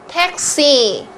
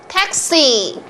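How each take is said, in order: No difference in how they are said.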